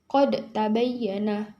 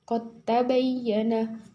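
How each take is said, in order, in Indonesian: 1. Huruf d dilafalkan terpisah sebelum t. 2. Huruf d menyatu sepenuhnya dengan t setelahnya. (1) "bukan qad tabayyana" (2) "dibaca langsung masuk huruf ta"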